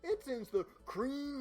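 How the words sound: It is read in a gravelly wrestler voice.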